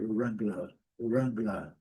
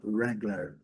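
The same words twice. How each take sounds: First: British "Wrangler" with silent final R; British pronunciation. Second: American "Wrangler" with final R sounded; American pronunciation. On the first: Teacher contrasting accents for learners, British R-less ending. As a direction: end British "Wrangler" on an open "-luh". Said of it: "o R não é pronunciado". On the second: Teacher contrasting accents for learners, American R ending. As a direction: curl the last R of American "Wrangler". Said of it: "E no inglês americano". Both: Shown as a demonstration.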